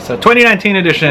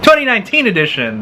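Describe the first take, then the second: First: It is said flatly, without enthusiasm. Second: It is said with lively enthusiasm.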